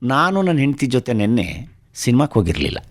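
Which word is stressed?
ಸಿನಿಮಾಕ್ಕೆ. The word for cinema is stressed. They went out, but not to the cinema. "ನಾನು ನನ್ನ ಹೆಂಡತಿ ಹೋಗಿದ್ವಿ, ಸಿನಿಮಾಕ್ಕೆ ಹೋಗಿರಲಿಲ್ಲ ಅಂತ"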